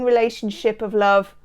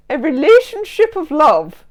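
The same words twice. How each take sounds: First: Said in the usual way. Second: High, loud put-on voice; hammed-up mocking voice. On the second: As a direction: declaim it with mock grandeur. Hams up own odd phrase.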